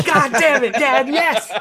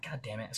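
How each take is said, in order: First: Much higher and louder, laughing with joy; overjoyed yelp. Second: Dejected grumble. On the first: Son to dad after the surprise gun, laughing with delight. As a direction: squeal like a kid at Christmas. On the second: Kid sent out of the gun store, muttering deflated. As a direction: mutter it, deflated and much softer. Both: Retold or imitated.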